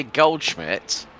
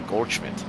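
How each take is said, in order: First: Said in the usual way. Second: Goldschmidt said the proper German way; German pronunciation. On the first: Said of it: "when I say it with my normal voice". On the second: Shown as a demonstration. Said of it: "say it in the proper German pronunciation".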